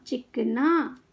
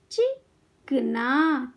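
First: Said in the usual way. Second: चिकना very slowly, pause after चि; syllable by syllable. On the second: Shown as a demonstration. Teacher teaching kids to read, syllables apart. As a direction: break चिकना into चि - कना. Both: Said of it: "शब्द पढ़ना सिखाऊंगी".

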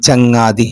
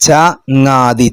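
First: Said in the usual way. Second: ചങ്ങാതി drawn out syllable by syllable; slow syllables. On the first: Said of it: "ഇത് ചേർത്തി വായിക്കാനാ വന്ന്". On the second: Shown as a demonstration. Teacher shows pupils ചങ്ങാതി spelled out slowly. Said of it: "ചേർത്തി വായിക്കാനാ".

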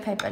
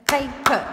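First: Said in the usual way. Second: "Paper" in two punched beats, pay, per; split into syllables. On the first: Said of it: "if we say the word". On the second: Shown as a demonstration. Teacher showing pupils the syllables, "Paper" said in two distinct beats. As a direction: say "Paper" loudly, each syllable separate. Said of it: "listen to it".

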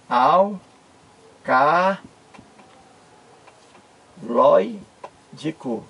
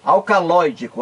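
First: "Alcaloídico" split as al... ca... loi... dico, long pauses between; syllable by syllable. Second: Said in the usual way. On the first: Shown as a demonstration. Teacher separating the syllables for viewers, "Alcaloídico" in isolated pieces. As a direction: say "Alcaloídico" very slowly, each syllable on its own. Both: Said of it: "vamos separar aqui a sílaba".

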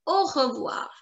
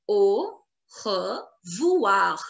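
First: Said in the usual way. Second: Very slow Au, re, voir with pauses; syllable by syllable. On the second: Shown as a demonstration. Teacher models the written form, Au revoir very slowly split. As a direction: stretch Au revoir out sound by sound.

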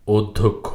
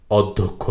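First: অধ্যক্ষ said "oddhokkho", opening on o; correct o-like vowel. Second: অধ্যক্ষ said "awddhokkho", with open aw first; mistaken open vowel. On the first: Teacher correcting the error, "oddhokkho". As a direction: begin অধ্যক্ষ with a rounded o. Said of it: "শব্দটির সঠিক উচ্চারণ". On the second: Teacher showing the error to avoid, "awddhokkho". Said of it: "অধ্যক্ষ না". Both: Shown as a demonstration.

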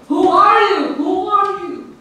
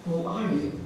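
First: High, loud call across a valley; high-pitched demanding yell; shouting back. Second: Soft answering echo; softer, faint reply from afar. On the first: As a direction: shout the challenge, then ease off on the repeat. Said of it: "he shouted back". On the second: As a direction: repeat it quietly, like a distant echo. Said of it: "receive the same echo". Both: A narrator's reading.

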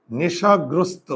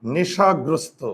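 First: নেশাগ্রস্ত said slowly, each syllable drawn out; slow spelling demo. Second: Said in the usual way. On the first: Shown as a demonstration. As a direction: stretch out নেশাগ্রস্ত for the class to hear. (নেশাগ্রস্ত ধীরে, প্রতিটি অক্ষর টেনে) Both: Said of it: "আমি যদি এখন বলি".

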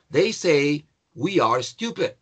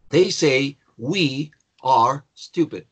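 First: Said in the usual way. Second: Very slow, separated words; slow teacher's dictation with clear pauses; word-by-word model. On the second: Shown as a demonstration. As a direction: say each word on its own for learners. Repeats example word by word.

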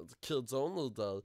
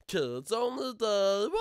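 First: Said in the usual way. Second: Loud, high, drawn-out wail; slow high-pitched mock bawl. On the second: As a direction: stretch it out into a loud cry.

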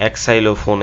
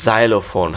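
First: "এক্সাইলোফোন" starting with eks, ek-sai-lo-fon; common mispronunciation. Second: "জাইলোফোন" starting with z, zai-lo-fon; correct pronunciation. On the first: Teacher showing many students' mistake, wrong pronunciation. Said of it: "এরকম উচ্চারণ করব আমরা অনেকেই". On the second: Teacher revealing the fun word, correct pronunciation. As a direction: open "জাইলোফোন" on a buzzing z. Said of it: "উচ্চারণটা একটু মজার". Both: Shown as a demonstration.

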